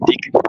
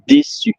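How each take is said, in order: First: The middle consonant is a hard K sound. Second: The middle consonant is an S sound. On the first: The speaker calls it wrong. "if you don't add the C C D, it's décu" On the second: The speaker calls it right. "to say déçu with the C"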